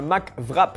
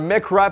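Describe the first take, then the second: First: It is said imitating a French accent. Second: It is said with the speaker's usual accent.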